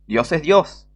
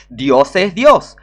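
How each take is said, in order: First: Said in the usual way. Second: "Dios es Dios" said much slower and louder, each word hammered; slow emphatic declaration. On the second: Shown as a demonstration. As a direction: pound out "Dios es Dios" word by word, very slowly. ("Dios es Dios" martillado, lento y fuerte)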